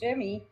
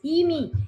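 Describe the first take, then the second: First: The name begins with an English J sound. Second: The name begins with a Spanish Y sound.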